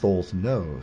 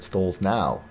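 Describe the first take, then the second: First: The last syllable rhymes with 'go'. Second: The last syllable rhymes with 'cow'. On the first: The speaker calls it right. "but it's Stolz no" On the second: The speaker calls it wrong. "you want to call her Karen Stolz now"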